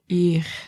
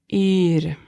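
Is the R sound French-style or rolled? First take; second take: French-style; rolled. First: The R is made in the throat. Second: The R is rolled at the front. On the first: "The R could also be pronounced like a French R" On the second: "if you master the R"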